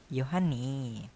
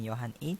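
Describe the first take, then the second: First: The name and particle are joined together. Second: The name and particle are said separately. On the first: The speaker calls it right. "tapi Yohani" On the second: The speaker calls it wrong. "bukan Yohan i"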